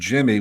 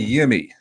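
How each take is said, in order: First: The name begins with a J sound. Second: The name begins with a Y sound. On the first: The speaker calls it right. "it's pronounced Jimmy with a J" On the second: The speaker calls it wrong. "now I say Yimmy"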